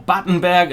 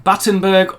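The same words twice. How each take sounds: First: BATTENBERG with berg as German 'bairg'; German pronunciation. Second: BATTENBERG with berg as English 'burg'; English pronunciation. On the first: Correcting the name as it should be pronounced, German pronunciation of Battenberg. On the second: Explaining the cake's name, English pronunciation of Battenberg. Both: Shown as a demonstration. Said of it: "as it probably should be pronounced".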